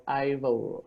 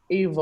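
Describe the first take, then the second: First: Ivor said as EYE-vor; first-syllable EYE. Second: Ivor said as EE-vor; first-syllable EE. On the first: Host guessing a guest's name, Ivor as EYE-vor. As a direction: pronounce Ivor with an eye sound at the start. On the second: Host guessing a guest's name, Ivor as EE-vor. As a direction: pronounce Ivor with a long ee at the start. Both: Shown as a demonstration. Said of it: "gonna pronounce the name incorrectly".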